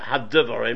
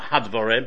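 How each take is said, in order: First: The d sound is said doubled, with the dagesh. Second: The d sound is said single, without doubling. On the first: The speaker calls it right. "but hadvarim, because it's got a dogish in there" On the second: The speaker calls it wrong. "Not hadvarim"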